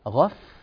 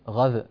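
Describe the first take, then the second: First: The final f sound is clear, lip against teeth. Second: The final f sound is unclear. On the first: The speaker calls it right. "نضغط قليلا على مخرج الفاء" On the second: The speaker calls it wrong. "هذا الصوت غير صحيح"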